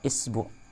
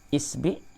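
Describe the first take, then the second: First: The vowel after the b is u. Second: The vowel after the b is i.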